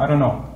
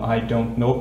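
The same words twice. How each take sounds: First: American style, the words run together. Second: British style, each word said separately.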